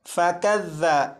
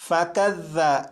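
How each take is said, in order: Both takes have the same delivery.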